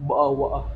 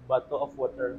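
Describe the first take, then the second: First: The t sounds are dropped, in a British accent. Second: Every consonant is pronounced clearly, in a plain accent.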